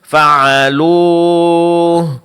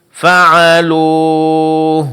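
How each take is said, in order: Both takes have the same delivery.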